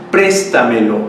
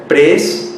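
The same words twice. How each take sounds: First: Said in the usual way. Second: "préstamelo" split into prés, ta, me, lo with pauses between; syllable by syllable. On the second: Shown as a demonstration. Teacher locating the stressed syllable for students, "préstamelo" broken syllable by syllable. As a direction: count out each syllable of "préstamelo" separately. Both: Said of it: "Vamos a ver".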